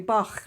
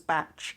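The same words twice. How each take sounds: First: The name ends in a throaty kh sound. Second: The name ends in a ch sound. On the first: This is how the composer's name is said. "it should be Bach, like the composer" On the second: This is how the original centre says it. "should be pronounced as Bach, B A T C H"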